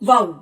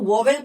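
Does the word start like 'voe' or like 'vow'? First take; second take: vow; voe. First: It starts like 'vow', with the 'ow' sound. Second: It starts like 'voe', said as 'vo-vel'. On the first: The speaker calls it right. "इसका जो सही pronunciation है वो होता है वाउ" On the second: The speaker calls it wrong. "हम लोग इसको वोवेल पढ़ते हैं"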